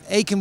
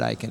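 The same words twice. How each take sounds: First: The name is pronounced the English way. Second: The name is pronounced the German way. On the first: This is the original correct form of the name. "it's an Old English name. Would Aiken would be correct" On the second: This is how it is said in Germany. "in Germany you would pronounce it Aiken"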